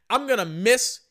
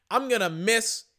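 Both takes have the same delivery.

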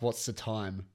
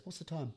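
First: Said in the usual way. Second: High, soft, innocent query; suddenly mild question. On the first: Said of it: "Then stops and stares at my mate and asks". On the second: Retold or imitated. Ranting passenger suddenly asking his mate, soft and high. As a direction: drop the rant and ask softly, higher. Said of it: "middle of a rant and then just stops".

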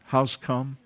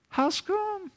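First: Said in the usual way. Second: High, soft, plaintive How's come; whiny complaint. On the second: Retold or imitated. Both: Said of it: "Is that real words?".

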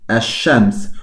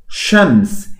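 First: Ash-shams with the written L dropped into the sh; silent lam. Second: Said in the usual way. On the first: Shown as a demonstration. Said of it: "esa lam es muda, se escribe pero no se pronuncia". ("ash-shams" con la lam muda, sin pronunciar la ele) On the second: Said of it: "sin artículo es shams".

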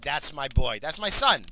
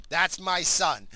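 First: Proud cheer. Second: Drawn-out, slow and loud proud line; slow proud cheer. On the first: Dad cheering his son's prank, loud and proud. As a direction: crow about your boy's prank. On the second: Dad savouring his son's prank, slow and proud. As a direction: savour each word with pride. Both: Retold or imitated.

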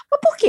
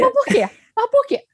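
First: High, pressing why; probing why. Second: High, repeated why; insistent why. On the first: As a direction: push the question up high. (pergunta insistente e aguda) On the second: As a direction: keep pressing the why up high. (porquê insistente e agudo) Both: Shown as a demonstration. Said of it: "exercício do porquê".

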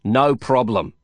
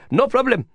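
First: Said in the usual way. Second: High, bright Indian friend voice; pitched up insistent No problem; Prabhakar's high No problem. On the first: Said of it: "I contradicted him". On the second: Acted. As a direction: toss off No problem high and eager. Prabhakar urging Lin.

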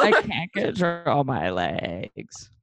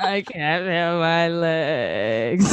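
First: Very slow whiny drawl. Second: Very slow, crying whine; whiny voice. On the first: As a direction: stretch it out, mocking the whine. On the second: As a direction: drag it out like a weepy drunk. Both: Retold or imitated. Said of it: "very whiny voice".

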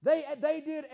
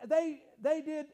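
No difference in how they are said.

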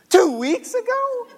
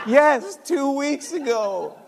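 First: Very high, loud, stretched question; shocked disbelief. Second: Loud, high, drawn-out confirmation; emphatic confirmation. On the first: Dad hears how long son hid it, high shocked disbelief. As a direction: squeal the question in astonishment. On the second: Son confirms the delay to dad, loud emphatic admission. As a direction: answer firmly, stretching the time words. Son's answer to shocked dad. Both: Retold or imitated.

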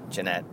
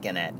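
First: Gennett said with a J sound at the start; soft-G pronunciation. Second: Gennett said with the G of "get"; hard-G pronunciation. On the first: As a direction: stress the second syllable of Gennett, soft G. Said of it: "I'm gonna call him Gennett". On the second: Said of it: "I think it's gonna be spelled". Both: Shown as a demonstration.

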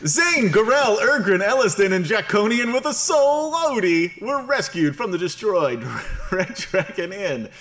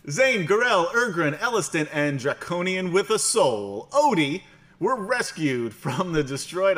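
First: Much higher, louder grand narrator. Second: High, loud dramatic narrator voice. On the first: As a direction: boom it out like a cartoon announcer. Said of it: "my narrator voice now". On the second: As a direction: read the recap like a grand announcer. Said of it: "I've changed my, uh, my narrator voice now". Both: Acted.

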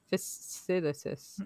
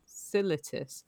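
First: Fasciitis sounded out slowly, syllable by syllable; careful pronunciation. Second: Said in the usual way. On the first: Shown as a demonstration. Correcting herself on a medical term, slow careful pronunciation. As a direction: spell out Fasciitis with the mouth, slowly.

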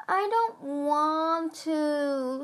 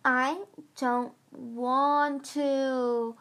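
First: Put-on slow, high whine like a scared child; whining. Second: Very slow, high whine; complaining. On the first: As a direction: drag it out in a whimper. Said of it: "Squid whined". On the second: Acted. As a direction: drag out a sulky whimper. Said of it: "Squid complained again".

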